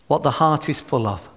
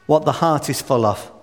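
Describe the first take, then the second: No difference in how they are said.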